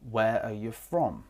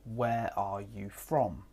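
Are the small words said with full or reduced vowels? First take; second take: reduced; full. First: The small words are reduced to weak forms. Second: The small words keep their full vowels.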